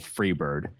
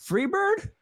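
First: A low, flat retold call from the crowd; mild mock yell. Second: A far higher incredulous performer voice; surprised question. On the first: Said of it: "my mom at the exact same show yelled". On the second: Retold or imitated. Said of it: "And he was like".

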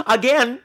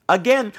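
The two takes are said the same way.

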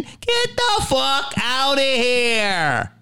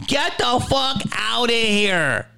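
First: Very slow, higher, scornful "Get the fuck outta here"; drawn-out disbelief. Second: Flatter repeat. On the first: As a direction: stretch each word out in mocking disbelief. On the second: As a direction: say it again, heavier and falling. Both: Acted. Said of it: "I didn't know nothing".

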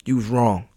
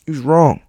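First: Said in the usual way. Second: Whispered. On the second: Shown as a demonstration. Telling himself he was wrong, in a whisper.

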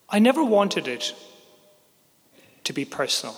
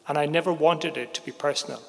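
First: Never said higher and louder; insisting, "never" hit loud and high; stress on never. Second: Said in the usual way. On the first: Real, not acted. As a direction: lean hard on "never". Insists it was never personal.

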